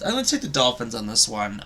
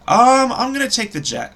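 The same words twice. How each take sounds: First: Said in the usual way. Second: Blurted out high and loud, then cut off; impulsive blurt. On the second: Real, not acted. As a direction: jump the gun on the pick. Blurts a pick then corrects.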